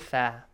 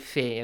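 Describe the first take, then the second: First: The letter name ends in an 'a' vowel. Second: The letter name ends in an 'e' vowel. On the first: This is the Arabic way of naming the letter. "And in Arabic, we say fa" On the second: This is the Persian way of naming the letter. "Fe is in Persian, we say fe"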